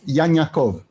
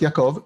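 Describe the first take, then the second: First: The middle ayin sound is a 'ny' sound. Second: The middle ayin sound is silent. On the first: "they would use the ny sound" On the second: This is the modern Hebrew way of saying it. "is not Yaakov"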